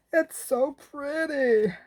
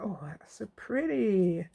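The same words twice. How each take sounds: First: High, slow drawn-out American "It's so pretty"; American accent. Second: Said in the usual way. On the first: Shown as a demonstration. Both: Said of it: "That's a bit American".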